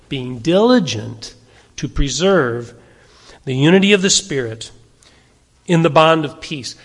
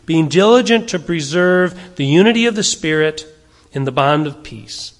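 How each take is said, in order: First: "Being diligent", "to preserve", "the unity of the Spirit" and "in the bond of peace" set apart by pauses; deliberate reread. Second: Said in the usual way. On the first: Shown as a demonstration. Pastor rereading the verse so the church hears every word, deliberate. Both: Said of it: "Let's read that again".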